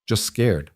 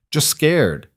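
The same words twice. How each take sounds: First: Said in the usual way. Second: Put-on "scared" stressed and higher in a heavy Russian accent; light Russian-accented "just scared", leaning on "scared". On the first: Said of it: "Lena repeated". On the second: A narrator's reading. Bodyguard coaching a frightened woman, heavy Russian accent. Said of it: "in his heavy accent".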